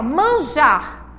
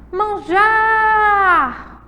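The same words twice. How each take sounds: First: Said in the usual way. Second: Manjar with JAR held long, high and loud; calling the word. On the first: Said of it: "é simplesmente chamar". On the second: Shown as a demonstration. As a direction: shout out "Manjar", stretching the jar. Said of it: "O já é a sílaba tônica". (chamar "Manjar" alto, alongando o jar)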